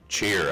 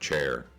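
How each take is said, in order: First: The vowel sounds like the one in 'ear'. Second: The vowel sounds like the one in 'air'. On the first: This is the local dialect way of saying it. "I say cheer instead of chair" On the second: This is the standard way of saying it. "instead of chair"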